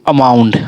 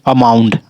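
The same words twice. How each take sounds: Both takes have the same delivery.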